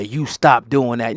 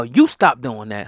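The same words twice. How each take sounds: First: Slow scolding with the word stop hit hard; mock scolding. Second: Slow scolding with "You" hit hard; mock scolding, stress on you. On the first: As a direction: lean on "stop" as you wag a finger. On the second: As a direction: jab the word "You" at them. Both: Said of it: "point down and say".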